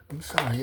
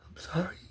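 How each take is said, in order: First: Said in the usual way. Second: Breathy under-the-breath apology; half-swallowed whispered sorry. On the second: Real, not acted. Apologizing to the listener, whispered.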